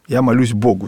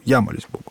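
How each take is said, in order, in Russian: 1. Ударение падает на слово «Богу». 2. Ударение падает на слово «я».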